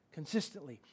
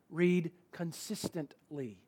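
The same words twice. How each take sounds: First: "Consistently" almost breathed, very soft; quiet echo. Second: "consistently" slowed and soft, falling; slow emphasis. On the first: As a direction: repeat "Consistently" under your breath. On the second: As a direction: draw out "consistently", quietly. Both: Shown as a demonstration.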